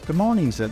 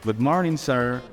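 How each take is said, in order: First: It is said in a British accent. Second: It is said in an American accent.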